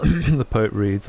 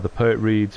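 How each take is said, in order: First: Slow, hammed-up grand reader's announcement; mock poet voice. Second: Said in the usual way. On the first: Shown as a demonstration. Playful streamer obliges a viewer's request for the poet voice, mock grand and slow. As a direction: clear the throat and announce it like a pompous poet. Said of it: "the poet reads, please". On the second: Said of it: "Kiviar, the poet reads, please".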